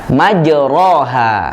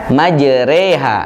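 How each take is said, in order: First: The vowel after r is an open a sound. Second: The vowel after r is bent toward e. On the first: "Bacaannya adalah majroha" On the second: "Bacaan aslinya dibaca majreha, menjadi e"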